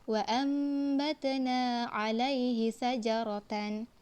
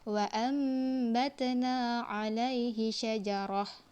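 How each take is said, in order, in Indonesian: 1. Kata terakhir berakhir dengan huruf t dan n. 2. Kata terakhir berakhir dengan bunyi h yang pendek. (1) "jangan dibaca" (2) "Dia hanya dibaca"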